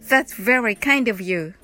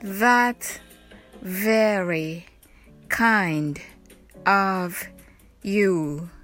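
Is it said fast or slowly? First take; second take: fast; slowly. First: It is said fast. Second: It is said slowly.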